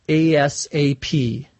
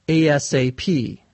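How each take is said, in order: Both takes have the same delivery.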